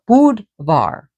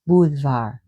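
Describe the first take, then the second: First: The D is pronounced hard. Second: The D is pronounced soft. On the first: The speaker calls it wrong. "Not Budvar" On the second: The speaker calls it right. "the D is a soft D"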